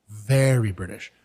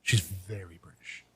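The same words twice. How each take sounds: First: "Very" drawn out slowly and leaned on; a slow, emphatic "Very British"; stress on Very. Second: Said in the usual way. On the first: Real, not acted.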